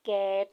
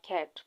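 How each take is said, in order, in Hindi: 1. स्वर को लंबा खींचा गया है। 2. स्वर को झटके से छोटा बोला गया है। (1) "अगर हम ये इसको इस तरह से प्रोनाउंस करते तो ... लॉन्ग वावल आ रहा है" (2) "डायरेक्ट कहा ... ये शॉर्ट साउंड है"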